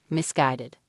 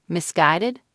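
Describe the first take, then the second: First: Said in the usual way. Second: Rising, disbelieving echo of "Misguided?"; incredulous. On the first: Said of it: "searching for the right word". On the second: A narrator's reading. Brandi echoes Dorrit's word back, incredulous. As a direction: repeat "Misguided?" as if you can't believe it. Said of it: "her tone incredulous".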